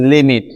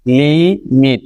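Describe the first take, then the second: First: Said in the usual way. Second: limit split in two, li, pause, mit; drawn-out li, short break, then mit in limit; broken into syllables. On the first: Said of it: "আমি যদি বলি limit". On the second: Shown as a demonstration. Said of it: "দেখেন কয়বার ভাঙতে হচ্ছে শব্দটিকে".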